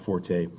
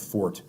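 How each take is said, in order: First: The word ends in an ay vowel. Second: The word ends in a plain t sound. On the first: The speaker calls it wrong. "Pardon me" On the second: The speaker calls it right. "That is a proper pronunciation of that word"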